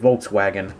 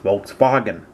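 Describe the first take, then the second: First: It is said with an American pronunciation. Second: It is said with the original, non-American pronunciation. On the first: The speaker calls it wrong. "as we Americans say it" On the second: The speaker calls it right. "Technically, it's"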